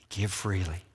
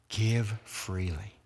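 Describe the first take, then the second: First: Said in the usual way. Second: "Give freely" said slowly, leaning on "Give"; slow, emphatic repeat. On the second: Shown as a demonstration. Preacher repeats the charge to the congregation, slow and weighty. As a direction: stretch out "Give freely" so each word lands.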